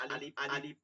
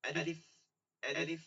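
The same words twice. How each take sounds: First: আলিফ read the way many wrongly read it; the mispronounced আলিফ learners often use; common wrong alif. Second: আলিফ said carefully the proper way; teacher models the correct আলিফ; correct alif. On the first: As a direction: show the mistaken আলিফ, softly. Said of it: "অনেকে আমরা এরকম পড়ছি". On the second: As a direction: model the right আলিফ for the class. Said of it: "খেয়াল করবো আলিফ নাকি হবে". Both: Shown as a demonstration.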